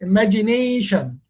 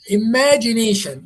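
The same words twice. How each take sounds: First: The stress is on the fourth syllable. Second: The stress is on the second syllable. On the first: The speaker calls it right. "it's that nation" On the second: The speaker calls it wrong. "if it was a second, it will say imagination"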